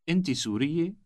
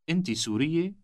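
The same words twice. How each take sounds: First: The voice rises at the end. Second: The voice rises at the end.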